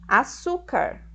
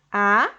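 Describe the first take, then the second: First: Said in the usual way. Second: "A-su-car" in three separate beats; syllable by syllable. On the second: Shown as a demonstration. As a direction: say "A-su-car" with a pause after each syllable. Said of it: "Eu separo a palavra açúcar".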